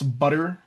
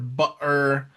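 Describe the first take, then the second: First: The middle t sounds like a quick d. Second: The middle t is a glottal stop. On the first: The speaker calls it right. "It's butter and water" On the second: The speaker calls it wrong. "we don't say water or but uh or butter"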